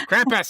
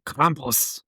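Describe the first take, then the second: First: Krampus shouted high in a bad Dutch accent. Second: Krampus with a bad Dutch accent. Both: Shown as a demonstration. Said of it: "say it with a really bad Dutch accent".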